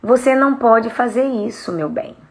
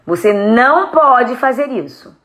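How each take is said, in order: First: Gentle. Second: Slow, firm parental prohibition. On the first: Parent telling a child no, gentle. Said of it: "Falar de um jeito manso". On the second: Parent forbidding a child, firm. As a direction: lay down the rule slowly and firmly. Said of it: "Eu vou falar aqui pra vocês assim". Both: Shown as a demonstration.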